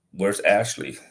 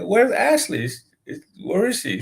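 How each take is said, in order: First: Said in the usual way. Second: Much higher-pitched, pressing repeat of the question; insistent question. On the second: Retold or imitated. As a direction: press the upset caller for an answer. Repeats question, cutting through rant.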